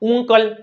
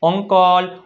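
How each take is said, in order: First: The word begins with an 'oo' vowel. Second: The word begins with an 'uh' vowel. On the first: The speaker calls it wrong. "નથી થતું" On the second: The speaker calls it right. "શું થાય અ"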